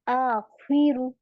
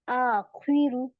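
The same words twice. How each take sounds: Both takes have the same delivery.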